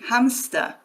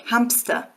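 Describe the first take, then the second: First: No p sound is heard before the s. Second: A p sound is heard before the s. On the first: "if you try to say it without the P" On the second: "There's a P in there that we don't write"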